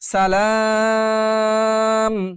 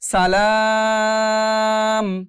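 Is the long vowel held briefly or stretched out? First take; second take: stretched; stretched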